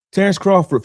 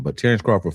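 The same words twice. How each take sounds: First: Emphatic. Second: Said in the usual way. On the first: Real, not acted. Emphatic name drop.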